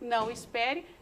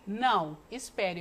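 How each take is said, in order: First: The words run together without a pause. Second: There is a pause after the first word. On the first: The person does not need to wait. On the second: The speaker is asking the person to wait.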